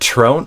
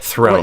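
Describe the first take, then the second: First: The word begins with a plain T sound. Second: The word begins with a TH sound. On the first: The speaker calls it wrong. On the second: The speaker calls it right.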